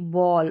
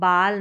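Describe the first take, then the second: First: The vowel is a rounded 'aw' sound. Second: The vowel is an open 'ah' sound. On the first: The speaker calls it right. "अ का sound आएगा, ओ का भी नहीं" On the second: The speaker calls it wrong. "इसको बाल नहीं पढ़ेंगे"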